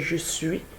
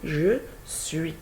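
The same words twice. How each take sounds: First: The words are squeezed into one reduced syllable. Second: Both words are said fully and separately. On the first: This is the informal register. The speaker calls it wrong. "C'est pas je suis" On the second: This is the standard register. The speaker calls it right. "c'est je suis"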